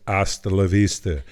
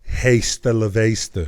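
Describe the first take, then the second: First: The h at the start is silent. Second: The h at the start is pronounced. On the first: The speaker calls it right. "you say hasta la vista" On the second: The speaker calls it wrong. "You don't pronounce the H. You don't say hasta la vista"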